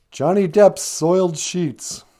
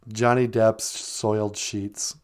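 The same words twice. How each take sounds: First: Slow emcee call of Johnny Depp's Soiled Sheets; hyped band intro. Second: Slow, deliberate band name; band name announced. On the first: Introducing the band on the show, slow emcee call. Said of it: "But first". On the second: Naming the punk band for sweetie, said slowly. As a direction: announce Johnny Depp's Soiled Sheets slowly, each word given weight. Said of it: "that to be our punk band name". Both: Shown as a demonstration.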